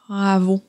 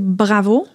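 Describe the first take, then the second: First: The B is made with a very soft contact. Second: The B is made with a firm, clear contact. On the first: "ma bouche va être vraiment, vraiment euh, très, très molle quand je vais dire le, le B" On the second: "Mon B est plus clair"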